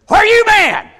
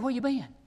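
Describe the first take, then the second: First: It sounds harsh and accusing. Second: It sounds gentle and concerned.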